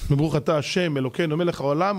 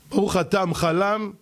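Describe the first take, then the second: First: Every word is pronounced fully and separately. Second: The words are swallowed into one short clipped blur. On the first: The blessing is properly said. The speaker calls it right. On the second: The blessing is not properly said. The speaker calls it wrong.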